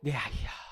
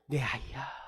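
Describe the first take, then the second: First: It is said in a harsh, scolding tone. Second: It is said in a warm, tender tone.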